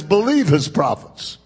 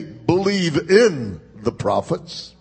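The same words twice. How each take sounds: First: "Believe" carries the weight, falling to the end; stress on BELIEVE. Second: "in" drawn out slow, rising at the end; slow "Believe in" with the weight on "in"; stress on IN. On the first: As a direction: hit "Believe" and let "his prophets" fall. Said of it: "All it is saying is". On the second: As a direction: lean on "in" and lift the close. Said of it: "notice this does not say". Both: Shown as a demonstration.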